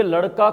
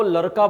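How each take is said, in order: First: Said in the usual way. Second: लड़का pronounced "laraka". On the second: Retold or imitated. Teacher explaining mother-tongue influence, लड़का with r. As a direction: swap ड़ in लड़का for r. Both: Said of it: "ड को क्या बोल रही है".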